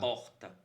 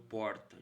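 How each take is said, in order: First: The R is pronounced like a French R. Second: The R is pronounced like a Piracicaba R. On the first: This is how the speaker's son says it. "Porque o R francês" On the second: This is how the speaker himself says it. "o meu porta, de Piracicaba"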